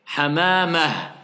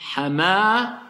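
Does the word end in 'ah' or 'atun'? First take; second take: ah; ah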